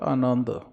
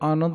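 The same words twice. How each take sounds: First: The word is fully sounded out. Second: The word is clipped, not fully sounded. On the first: The speaker calls it right. "ਪੂਰਾ ਸ਼ਬਦ ਹੈ" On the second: The speaker calls it wrong. "ਇਹਨੂੰ ਆਨੰਦ ਨਹੀਂ ਕਹਿਣਾ"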